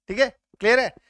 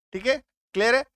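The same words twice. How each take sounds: The two takes are said the same way.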